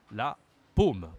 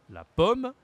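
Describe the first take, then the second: First: Paume with a long, rounded closed O. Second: Pomme high and loud, short open O. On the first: Teacher contrasts palm with apple, closed O in paume. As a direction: drop to paume, closing and holding the O. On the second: Teacher contrasts apple with palm, high open O in pomme. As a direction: lift pomme up and keep its O open. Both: Shown as a demonstration. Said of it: "c'est différent de apple".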